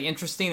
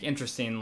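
First: The word sounds warm and enthusiastic. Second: The word sounds dismissive and disdainful. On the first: The film was engaging and enjoyable. "in a positive light" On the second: The film was dull or disliked. "not like interesting, like, oh, showing my disdain for it"

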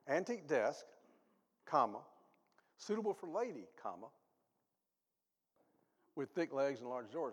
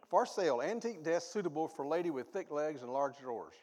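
First: It is read with breaks after desk and lady. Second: It is read straight through without pauses.

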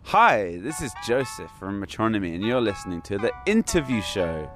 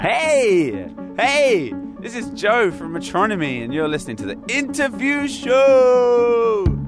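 First: It is said in a calm, plain way. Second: It is said with loud, punchy energy.

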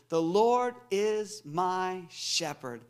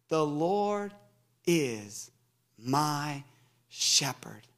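First: It is said at a normal pace. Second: It is said a little more slowly.

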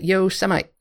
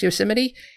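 First: The word has an altered pronunciation. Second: The word has its usual pronunciation. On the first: The speaker calls it wrong. "he pronounced it Yo-semite" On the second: The speaker calls it right. "but he mispronounced Yosemite"

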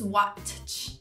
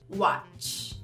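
First: The t sound is pronounced. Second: The t sound is silent. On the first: The speaker calls it wrong. "Não se diz watch" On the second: The speaker calls it right. "O T também é mudo na palavra watch"

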